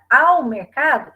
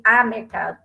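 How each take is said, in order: First: Slow, louder, stretched "ao" before "mercado"; stress on AO. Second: Said in the usual way. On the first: Shown as a demonstration. Teacher showing the substitution for crase, "ao" loud and drawn out. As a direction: hit "ao" hard and hold it. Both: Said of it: "substituir esse a mercado para".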